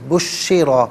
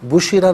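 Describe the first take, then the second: First: The sh sound is held and doubled. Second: The sh sound is short and single. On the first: The speaker calls it right. "शीन मुशद्दद है इससे जमाव के साथ अदा करेंगे" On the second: The speaker calls it wrong. "बुशिरा नहीं"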